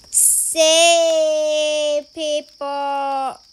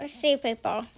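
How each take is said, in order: First: Very slow, stretched-out words; drawn-out call. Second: Said in the usual way. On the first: Pretend. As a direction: stretch each word out long.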